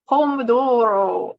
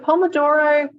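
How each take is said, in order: First: It is said with an Italian accent. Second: It is said with an Australian accent.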